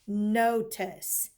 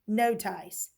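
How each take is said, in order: First: The second syllable has a schwa vowel. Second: The second syllable has a long i vowel. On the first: The speaker calls it right. "It makes the schwa sound" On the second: The speaker calls it wrong. "it's not no tice"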